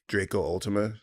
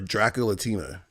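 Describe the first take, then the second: First: The name is split after Draco. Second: The name is split after Dracula. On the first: The speaker calls it right. "I think it's it might be Drake Draco Ultima" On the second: The speaker calls it wrong. "Did I say Dracula Tima?"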